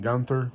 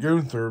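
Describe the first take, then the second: First: The vowel after the G is short. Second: The vowel after the G is long. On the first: The speaker calls it wrong. "which would be the short uh, pronunciation of the U" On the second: The speaker calls it right. "the U has the umlauts over top of it, meaning that it is a long pronounced letter"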